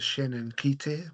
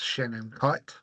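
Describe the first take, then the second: First: The name is said with Māori pronunciation. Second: The name is said with English pronunciation. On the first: The speaker calls it wrong. "The Māori in me is going to pronounce this as" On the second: The speaker calls it right. "I'm pretty sure it's"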